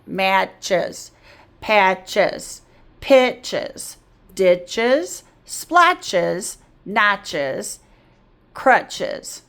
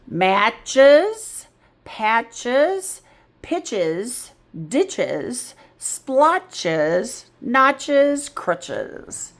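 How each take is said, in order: First: "Matches" tapped out as two beats, mat-ches, likewise each word; split into syllables. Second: Said in the usual way. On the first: Shown as a demonstration. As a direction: tap both syllables of "Matches" through "crutches". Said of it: "two syllables for each one. Watch my tap". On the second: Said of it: "So let's try them again".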